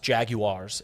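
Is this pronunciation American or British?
British. Every vowel in the word is pronounced fully. "British people pronounce it with all the vowels"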